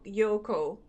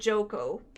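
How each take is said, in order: First: The name begins with a Y sound. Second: The name begins with a J sound.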